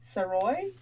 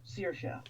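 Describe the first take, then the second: First: The name ends in an 'oy' sound. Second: The name ends in a 'sha' sound. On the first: The speaker calls it wrong. "I was wrong" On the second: The speaker calls it right. "It's Saoirse"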